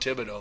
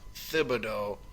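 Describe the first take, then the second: First: The H in the name is silent. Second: The H in the name is pronounced. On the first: The name as the national media used it for years. "To me, he's still Tom Thibodeau" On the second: The name as it is now used locally. "that's what we're going with here in Minnesota for pronunciation"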